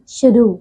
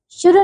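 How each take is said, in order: First: शुरू with a long final "oo"; correct pronunciation. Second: शुरू with a short final "u", high; mispronunciation. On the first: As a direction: draw out the end of शुरू. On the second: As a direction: clip the end of शुरू. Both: Shown as a demonstration. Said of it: "शुरू नहीं".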